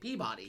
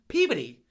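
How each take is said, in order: First: It is said plainly, the way it is spelled. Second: It is said with a reduced middle, like 'puberty'. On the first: An outsider reads the name from its spelling. "I was calling it Peabody because it's spelled P E A B O D Y" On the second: This is how the locals say the name. "They pronounce that fucking town Peabody"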